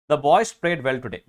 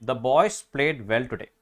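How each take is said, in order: First: Put-on boys hit louder, said slowly; slow read, lean on boys; stress on boys. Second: Slow read. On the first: (boys എന്ന വാക്കിൽ ഊന്നൽ) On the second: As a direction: read the example slowly again. (പതുക്കെ വായിക്കുക) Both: Shown as a demonstration.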